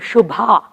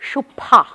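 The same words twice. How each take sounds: First: The b sound is followed by a breathy h. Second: The b sound is plain with no breathy h. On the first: The name as its owner says it. "my name" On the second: The closest that American listeners manage. "the best my American friends can achieve is Shubha, because the H sound is available only with the P for them"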